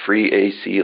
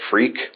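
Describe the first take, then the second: First: The name is said as three syllables. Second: The name is said as one syllable. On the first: "free AC like I pronounce it" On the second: "or they just call it freak"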